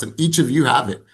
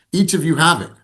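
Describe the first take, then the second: First: Said in the usual way. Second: Repeated higher and louder, "Each" punched; emphatic repeat. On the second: Real, not acted. Coach insisting to the team that each has it, emphatically. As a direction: hit "Each" hard the second time.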